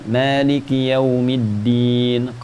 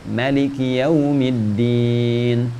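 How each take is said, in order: First: The first vowel of Maliki is held long. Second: The first vowel of Maliki is cut short. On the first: "kita bacakan" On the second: "Qalun baca pendek"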